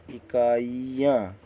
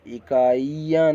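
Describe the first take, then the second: First: इकाइयाँ slow, with a short i before "yaan"; lighter, careful short-i इकाइयाँ; correct short vowel. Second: इकाइयाँ slow, with a long drawn ee; wrong long vowel. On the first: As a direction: sound out इकाइयाँ slowly, falling at the end. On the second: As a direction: stretch the ee in इकाइयाँ. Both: Shown as a demonstration. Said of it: "इकाइयाँ नहीं".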